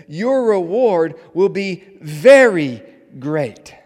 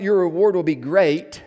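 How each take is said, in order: First: "very" drawn out high and loud; slow, booming reading that swells on "very"; stress on VERY. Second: Loud reading with the weight on "great"; "great" as the loud final beat; stress on great. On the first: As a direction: stretch "very" hard, then land "great" apart. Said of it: "But notice what the text says". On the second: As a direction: land firmly on "great" at the end. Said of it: "not, "Your reward will be great". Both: Shown as a demonstration.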